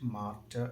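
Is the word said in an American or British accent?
British. The word is said in a British accent. "British ഇംഗ്ലീഷിൽ"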